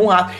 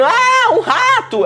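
First: Said in the usual way. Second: Mock scream. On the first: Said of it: "Ela tá literalmente gritando". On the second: Minnie spotting a mouse on the floor, shrieking. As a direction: shriek like a scared cartoon mouse. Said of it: "ela tá gritando".

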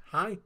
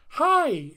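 First: Said in the usual way. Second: Imitating a booming, high, loud hello; exuberant greeting. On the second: Pastor welcoming the congregation, exuberant. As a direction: burst out with an over-enthusiastic welcome. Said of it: "sometimes he gets so enthusiastic".

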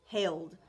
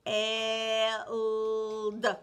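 First: Said in the usual way. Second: Held drawn out sound by sound; chopped into sounds. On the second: Shown as a demonstration. Teacher segments held for the child, sound by sound. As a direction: stretch Held into four separate sounds. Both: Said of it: "four chops for the word held".

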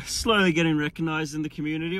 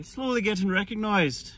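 First: Said in the usual way. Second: Higher-pitched, put-on Irish accent. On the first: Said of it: "or should I say". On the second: Shown as a demonstration. Vlogger joking about being recognised, put-on Irish accent. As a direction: say it in a mock Irish lilt. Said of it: "My Irish accent isn't the best".

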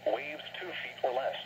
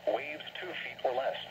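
Both takes have the same delivery.

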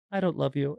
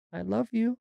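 First: Blunt rejection. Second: High little-girl imitation; child's bunny voice. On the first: Retold or imitated. Sister as the bunny rejecting the other girl, blunt imitation. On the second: Daughter speaking as the bunny to her sister, high imitated voice. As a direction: say it high, as a kid voicing a stuffed animal.

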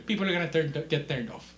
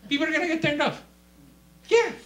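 First: Said in the usual way. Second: High, loud monotone yell; mock zealous shout. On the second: Preacher parodying fleshly witnessing, high shout. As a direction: blast it out, high and held.

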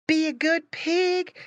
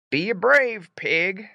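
First: High-pitched, slow motherly pig voice; mama pig. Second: Slow, louder papa voice, only slightly raised; papa pig. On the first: Mama pig to departing Squinty, high-voiced farewell. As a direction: advise slowly in a high mama voice. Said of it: "said his mama". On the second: Papa pig to departing Squinty, firm farewell. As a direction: urge it slowly and firmly as papa. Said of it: "said his papa". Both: A narrator's reading.

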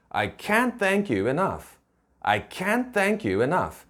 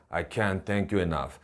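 First: "can't" lifted high, then falling on "enough"; lifted stress on can't. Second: "I can't thank you enough" low, soft and toneless; monotone, low voice. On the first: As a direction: stress "can't" clearly with raised pitch, spacing out the words. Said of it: "좀 띄워줘야 돼요, 발음을". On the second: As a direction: drop the voice and drain all emphasis from "can't thank you". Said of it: "톤을 좀 밋밋하게 목소리를 깔고 얘기하면은요". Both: Shown as a demonstration.

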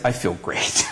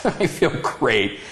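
First: Said in the usual way. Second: Slow laughing repeat; laughing, satisfied. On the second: Retold or imitated. Man telling his partner after church he feels great, laughing. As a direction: savor it through a laugh. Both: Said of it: "Dwayne said, Do you feel better".

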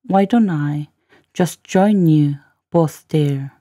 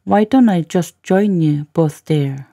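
First: Careful piece-by-piece model reading; slow, chunked demo. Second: Said in the usual way. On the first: Shown as a demonstration. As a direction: break after "Why don't I", then very slowly. Teacher repeats line in slow chunks.

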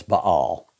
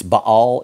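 First: "Baal" clipped to one Southern syllable, "Bawl". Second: "Baal" drawn out as "Baa-al"; proper pronunciation. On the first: Southern preacher giving the congregation his own "Baal", one syllable. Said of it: "I'm a one-syllable guy". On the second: Preacher showing the congregation how "Baal" is properly said, carefully. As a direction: say "Baal" the correct way, with a long open "aa". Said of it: "It's Baal is how it's pronounced". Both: Shown as a demonstration.

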